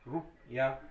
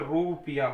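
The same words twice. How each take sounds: First: The first vowel is short and quick. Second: The first vowel is drawn out long. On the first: The speaker calls it right. "रू छोटा हुआ आएगा" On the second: The speaker calls it wrong. "बड़ी की मात्रा यहाँ ये लगा दी तो रुपया हो जाएगा"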